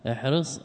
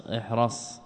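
First: احرص said ihris, i on the ra; kasra on the ra. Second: احرص said ihras, open a on the ra; fatha on the ra. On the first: (احرص بكسر الراء: احْرِص) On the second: (احرص بفتح الراء: احْرَص) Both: Shown as a demonstration. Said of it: "فيه وجهان".

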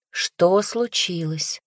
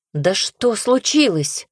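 First: Calm him down while asking; calm question. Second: Alarmed question. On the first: Настя как можно спокойнее спрашивает брата. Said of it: "как можно спокойнее узнать". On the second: Настя встревоженно спрашивает брата, что случилось. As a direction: pitch jumps up, slow and urgent. Sister demands what happened. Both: Acted.

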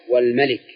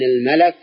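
First: "والملك" as wal-malik, with an i after the l; malik, kasra on lam. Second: "الملك" as al-malak, with an a after the l; malak, fatha on lam. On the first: Teacher contrasting king with angel, "والملك" said wal-malik. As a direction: say "والملك" with a short i in the last syllable. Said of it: "وليست بكسرها". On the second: Teacher contrasting angel with king, "الملك" said al-malak. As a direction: say "الملك" with an open second vowel, al-malak. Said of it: "بفتح اللام". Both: Shown as a demonstration.

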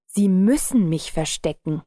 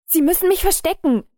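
First: Ruhig und gleichmäßig, bedrohlich; erschreckend ruhig. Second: Viel höher und lauter, panisch; in Todesangst betteln; panisches Flehen. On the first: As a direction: kalt und gelassen drohen. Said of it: "sagte erschreckend ruhig". (erschreckend ruhige Drohung) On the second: Verängstigter Mann fleht um Hilfe. (panisch flehend, hoch und laut) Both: A narrator's reading.

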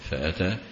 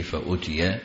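First: "فأتى" with an a on the hamza and a long final aa; active past form. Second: "فأتي" with u on the hamza, ending -iya; damma on hamza. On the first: Teacher shows students the reading "فأتى", active past fa-ataa. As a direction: say "فأتى" as fa-ataa, open a vowels. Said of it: "بصيغة الفعل الماضي". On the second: Teacher shows students the variant "فأتي", passive fa-utiya. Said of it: "بضم الهمزة على البناء". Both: Shown as a demonstration.

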